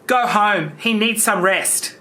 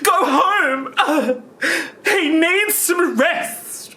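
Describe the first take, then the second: First: It is said in a flat, wooden way. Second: It is said in a more natural, expressive way.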